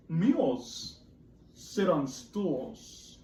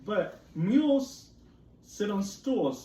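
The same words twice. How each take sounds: First: Very slow, drawn out; slow cat line. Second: MULES higher and louder, slow; emphatic cat line. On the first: Teacher reading cat's rhyme very slowly. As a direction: stretch every word. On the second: Teacher rereading cat's rhyme, MULES lifted. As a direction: hit MULES up high. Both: Acted. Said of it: "said the cat".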